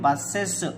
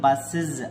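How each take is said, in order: First: The plural ending is pronounced as es. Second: The plural ending is pronounced as iz. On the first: The speaker calls it wrong. "అంతేగాని బస్సెస్ అనకూడదు" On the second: The speaker calls it right. "బస్ plus ఇజ్ ఏమవుతుంది బస్సెస్ అనాలి"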